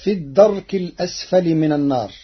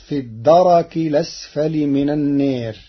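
First: الدرك said ad-dark, with a still rā; plain Hafs reading of الدرك. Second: الدرك said ad-darak, with a fatha on the rā; Warsh reading. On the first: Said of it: "قرأ ورش كلمة الدرك". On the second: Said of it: "بتحريك الراء مفتوحة". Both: Shown as a demonstration.

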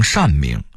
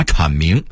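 First: 阐明 as shànmíng; workers' misreading. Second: Said in the usual way. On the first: Shown as a demonstration. Narrator quoting factory masters' misreading. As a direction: say 阐 as shàn, not chǎn. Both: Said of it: "把阐明说成".

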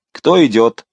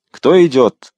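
First: Louder patrol challenge on Кто; called out. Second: Louder and higher, impatient Кто идёт; impatient repeat. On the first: Patrol chief challenging the carriage, loud call. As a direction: bark the question at the carriage. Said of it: "крикнул начальник". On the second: Patrol chief repeating his challenge, impatient and louder. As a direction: demand it again, losing patience. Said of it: "с нетерпением повторил тот же голос". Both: A narrator's reading.

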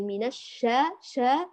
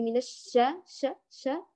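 First: الشا with wide-open long aa; full open shaa in الشا; open jaws. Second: الشا with a short, half-closed vowel; cramped sha in الشا; narrow jaws. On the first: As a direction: drop the jaw on شا. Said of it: "باعدي ما بين الفكين". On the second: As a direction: keep jaws nearly shut on شا. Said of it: "ولا تقربي الفكين من بعضهما". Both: Shown as a demonstration.

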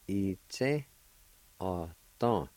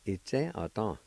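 First: I-tse, ah-tan with every syllable set apart; deliberate teaching version of I-tse, ah-tan; syllable-by-syllable pronunciation. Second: I-tse, ah-tan run together as one word; whole-word model of I-tse, ah-tan; joined-up pronunciation. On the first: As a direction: sound out I-tse, ah-tan, pausing between parts. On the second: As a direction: say I-tse, ah-tan smoothly, syllables connected. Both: Shown as a demonstration.

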